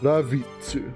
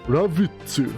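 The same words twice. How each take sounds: First: The name is said in a Japanese-style way. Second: The same.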